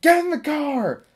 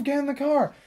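First: High commanding call out a car window; barked order. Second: Higher, annoyed repeat of the order; insist, losing patience; impatient order. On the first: Driver calling to neighborhood kid, high bossy command. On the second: Driver repeating order to staring kid, exasperated. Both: Retold or imitated. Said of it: "she's like".

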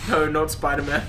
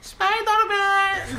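First: Said in the usual way. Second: Put-on high-pitched Eastern European kid accent; be a sweet Eastern European child, high and drawn out; little Eastern European child. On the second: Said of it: "little Eastern European child".

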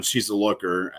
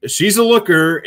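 First: Said in the usual way. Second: Higher and louder, admiring; an appreciative, raised exclamation; excited emphasis. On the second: Real, not acted. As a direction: lean in and say it with relish. Repeating praise, voice jumps up.

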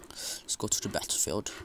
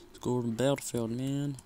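First: Whispered plain. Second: Fast, brash American accent on "battlefield". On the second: Gamer shows off his American accent. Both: Shown as a demonstration. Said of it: "It's like my American accent".

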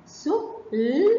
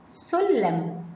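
First: "سلم" in pieces: سُ, long لـ, hummed م; segmented phonics "سلم", each sound held apart. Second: Said in the usual way. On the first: Shown as a demonstration. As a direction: break "سلم" slowly into its separate sounds. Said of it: "نحلل كلمات حرف السين". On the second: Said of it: "عندنا كلمة".

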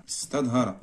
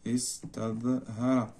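First: Said in the usual way. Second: استظهر drawn out softly, syllable by syllable; slow dictation. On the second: Shown as a demonstration. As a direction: stretch استظهر slowly and quietly as if writing it. Dictating word while writing it.

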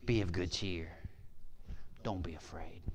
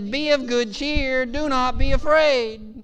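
First: Soft, low, near-whispered reassurance; calm reassurance. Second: High, loud, slow proclamation; proclaimed command. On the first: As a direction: hush it to calm the frightened. Calm Jesus answering frightened disciples. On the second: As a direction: ring it out over the storm. Sermon climax, Jesus's words proclaimed. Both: Retold or imitated.

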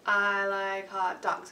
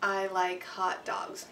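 First: "I like hot dogs" held out very slowly; imitating kids. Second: "I like hot dogs" said very slowly, one beat per word; rhythm example. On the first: Kids holding the whole note for four counts, very slow. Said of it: "they'll go". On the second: Shown as a demonstration. Teacher modeling a whole note with words, very slow. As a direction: stretch "I like hot dogs" evenly across the beats.

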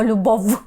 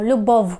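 First: Любов ending in a clear buzzing v; wrong hard final v. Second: Любов ending like "lyubow"; final w glide. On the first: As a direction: say любов with a distinct v at the end. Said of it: "так, ми не кажемо". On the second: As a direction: let the в in любов round off into a short w. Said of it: "ми кажемо". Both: Shown as a demonstration.

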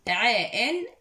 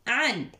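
First: "عين" split into ayn-a, then a separate "an"; syllable sounded apart. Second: "عن" joined as one syllable, "an" after ayn; blended tanween syllable. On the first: Teacher sounding out ayn with tanween for pupils, segmented. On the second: Teacher showing pupils ayn with fathatan, blended. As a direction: blend "عن" into a single nunated sound. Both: Shown as a demonstration. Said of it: "نتعلم الحرف أيضًا مع التنوين".

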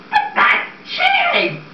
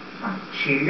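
First: Very high, slow, airy squeak; squeaky protest. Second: Low and hushed; soft coaxing. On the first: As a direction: squeak the line in disbelief. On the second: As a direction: murmur it reassuringly. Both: Acted. Max persuading Bloom to cook books.

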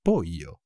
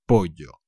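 First: Pollo said as poyo, with a plain y sound. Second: Pollo with ll as in standard Spanish, low and falling. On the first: Teacher showing how some countries say pollo. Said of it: "it would more sound like a I". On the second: Teacher contrasting regional ways of saying pollo. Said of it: "la L será como la L de jeans". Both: Shown as a demonstration.

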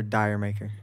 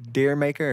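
First: DIRE maker, first word rhyming with fire; second pronunciation. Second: DEER maker, first word like the animal deer; first pronunciation. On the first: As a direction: say "dire" with an eye vowel. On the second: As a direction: say "Deer" with a long ee vowel. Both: Shown as a demonstration. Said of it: "pronounced two different ways".

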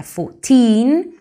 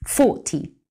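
First: Put-on "Fourteen" louder, with a rising, long "teen"; teacher contrasting "Fourteen" with "forty". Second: "forty" with a falling, short, dry "ty"; teacher contrasting "forty" with "Fourteen". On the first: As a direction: stretch and lift the "teen" of "Fourteen". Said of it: "Fijaos en la diferencia". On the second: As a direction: snap off the "ty" of "forty". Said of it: "Es más seco, es más rápido". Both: Shown as a demonstration.

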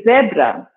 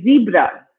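First: "zebra" with a short e, ZEB-ra; British "zebra", first vowel as in "bed"; British pronunciation. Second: "zebra" with a long ee, ZEE-bra; American "zebra", first vowel as in "see"; American pronunciation. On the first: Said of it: "In British English, we say zebra". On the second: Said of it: "In American English, they say zebra". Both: Shown as a demonstration.

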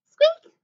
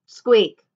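First: Very high, loud little mouse squeak; high-pitched playful squeak. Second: Half-hearted squeak in your own pitch; unwilling, unmouselike squeak; reluctant squeak. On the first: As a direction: squeak eagerly like a tiny mouse. Annie gladly squeaks like a mouse. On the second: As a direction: squeak only because you were told to. Jack reluctantly squeaks as told. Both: A narrator's reading.

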